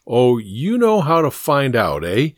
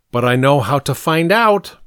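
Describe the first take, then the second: First: Mildly mocking adult echo; skeptical echo. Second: Put-on boy's confident claim, slightly raised; eager claim. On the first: Steinweister humoring Pink, skeptically mocking. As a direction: throw the boy's claim back with doubt. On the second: Pink pleading his case to Steinweister, eagerly confident. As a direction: offer it as a confident comeback. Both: A narrator's reading.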